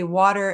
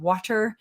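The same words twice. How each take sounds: First: The middle T sounds soft, like a D. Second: The middle T is a crisp, clear T. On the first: "a lot of our T's are said like D's. So we I say water" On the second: "instead of water"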